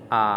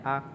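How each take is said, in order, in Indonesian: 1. Suku kata ini diucapkan dengan nada ketiga. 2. Suku kata ini diucapkan dengan nada ringan netral. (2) "Kalau nada ringan cuma a gitu aja"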